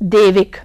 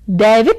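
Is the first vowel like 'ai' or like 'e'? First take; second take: e; ai. First: The first vowel is the closer 'e' sound. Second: The first vowel is the open 'ai' sound. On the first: The speaker calls it wrong. "न कि" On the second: The speaker calls it right. "सही है"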